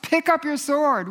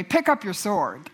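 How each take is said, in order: First: Higher, rising urgency on the repeat; emphatic repeat. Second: Said in the usual way. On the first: Real, not acted. Preacher urging listeners to take up scripture, emphatic and higher. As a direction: push it up as a rallying cry.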